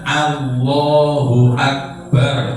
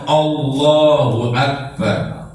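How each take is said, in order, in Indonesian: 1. Vokal alif bunyinya seperti 'a' yang jelas. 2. Vokal alif bunyinya seperti 'o' yang membulat.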